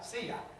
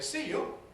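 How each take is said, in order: First: The second word is weakened to an open 'ya'. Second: The second word has a full 'you' vowel. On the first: It sounds vulgar. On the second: It sounds posh.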